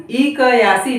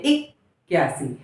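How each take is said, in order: First: इक्यासी with क as a full syllable; split half consonant. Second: Said in the usual way. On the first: Shown as a demonstration. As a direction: say इक्यासी as "i-ka-yaasi". (इक्यासी में क को पूरा बोलते हुए) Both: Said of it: "इक्यासी नहीं".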